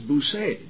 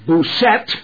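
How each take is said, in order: First: The final T is left silent. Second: The final T is clearly sounded. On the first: The speaker calls it right. "The T is silent" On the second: The speaker calls it wrong. "If you said Boussette to a Frenchman"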